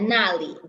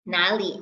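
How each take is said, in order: First: The first syllable has a sharp falling tone. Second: The first syllable has a low dipping tone. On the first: It means there. "na, fourth tone mark" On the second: It asks where. "For the question word where, it's third tone"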